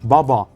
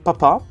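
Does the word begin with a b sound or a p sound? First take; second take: b sound; p sound. First: It begins with a voiced b sound. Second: It begins with a voiceless p sound. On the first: This is the Austrian pronunciation. "les Autrichiens ils disent baba" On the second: This is the German pronunciation. "les Allemands ils disent papa"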